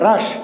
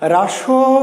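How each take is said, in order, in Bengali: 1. অক্ষরটা ব্যঞ্জনের উপর হঠাৎ থেমে যায়। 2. অক্ষরটা একটা অতিরিক্ত স্বরধ্বনি দিয়ে শেষ হয়। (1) "থেমে গেলাম, আটকে গেল" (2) "রাসো টো না"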